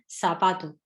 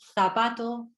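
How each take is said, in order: First: The first consonant is an s sound. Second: The first consonant is a th sound. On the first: "lo hacen como si fuese una S" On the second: "en lugar de decir"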